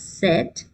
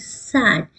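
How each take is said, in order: First: The word sounds like 'set'. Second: The word ends in a clear 'd' sound. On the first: The speaker calls it wrong. "You will not pronounce it as set" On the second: The speaker calls it right. "it is S A D, sad"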